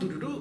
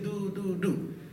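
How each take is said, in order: First: The sounds are short and quick. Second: The sounds are long and drawn out.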